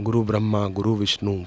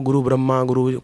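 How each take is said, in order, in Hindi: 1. यह वाक्यांश धीरे और शांति से बोला गया है। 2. यह वाक्यांश जल्दी-जल्दी रटा जा रहा है। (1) "प्यार से बोलना चाहिए" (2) "कई लोग ऐसा तेजी से बोलते हैं"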